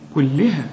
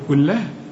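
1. اللام بعدها كسرة. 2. اللام مش بعدها كسرة. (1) "اللام هنا مكسورة" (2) "اوعى تقول لي كلها"

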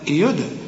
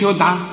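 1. صوت d يُنطق مع ارتداد صدى قصير. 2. صوت d يُحبس مسطحًا من غير ارتداد صدى. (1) "لا يدعى" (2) "ما تقولش يدعى"

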